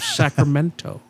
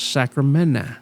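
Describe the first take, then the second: First: The middle t sound is clearly pronounced. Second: The middle t sound is dropped. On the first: The speaker calls it right. "instead of Sacramento. ... there's a T in there" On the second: The speaker calls it wrong. "someone says Sacramento on the radio"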